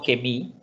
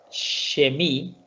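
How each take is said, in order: First: The word begins with a hard k sound. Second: The word begins with a sh sound. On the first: The speaker calls it wrong. "no kemi" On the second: The speaker calls it right. "decimos aquí, shemi"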